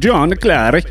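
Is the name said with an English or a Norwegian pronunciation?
Norwegian. The name has a Norwegian pronunciation.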